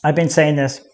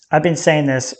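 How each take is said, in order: Both takes have the same delivery.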